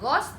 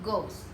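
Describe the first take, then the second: First: The vowel is said short and clipped. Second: The vowel is said a bit lengthened. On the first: The speaker calls it wrong. "bukan goes" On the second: The speaker calls it right. "bacanya agak dipanjangin"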